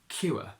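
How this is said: The vowel glides as a two-part diphthong. "we keep it as a diphthong in Geordie"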